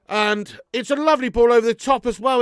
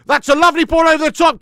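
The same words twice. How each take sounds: First: Said in the usual way. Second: Loud, high burst of excitement; excited shout. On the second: Real, not acted. Fan watching live, shouting at a great pass. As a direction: yell it as the pass lands.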